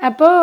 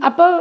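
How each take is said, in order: The two takes are said the same way.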